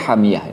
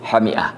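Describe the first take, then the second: First: A 'y' glide comes between the i and a. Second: A glottal catch comes between the i and a. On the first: The spring water is boiling hot. "itu bacanya hamiyah itu" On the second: "membaca kata hamiah itu dengan bahasa yang sebagaimana tertulis"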